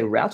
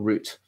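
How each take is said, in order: First: The vowel sounds like the one in 'out'. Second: The vowel sounds like the one in 'boot'. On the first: "Do you guys say route or root?" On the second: "Because root in Australia means sex"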